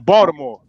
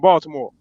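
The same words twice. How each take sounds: First: The middle consonant sounds like a D. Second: The middle consonant sounds like a clear T.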